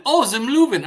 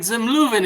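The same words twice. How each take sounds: First: Feigned realisation. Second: Higher, insistent restaurant name; exasperated repetition. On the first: Landlord to exasperated tenant, mock sudden understanding. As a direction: act as if it finally clicks. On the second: Tenant to landlord playing dumb, exasperated insistence. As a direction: repeat it with mounting frustration. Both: Acted.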